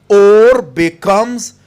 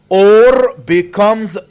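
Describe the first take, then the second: Both takes have the same delivery.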